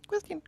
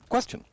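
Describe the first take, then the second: First: It is read in a squeaky little-mouse voice. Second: It is read in a normal speaking voice.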